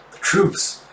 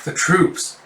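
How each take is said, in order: First: Breathless whispered gasp. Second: Said in the usual way. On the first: Acted. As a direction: gasp the words out under your breath. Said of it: "with a gasp and goes". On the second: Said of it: "It's like".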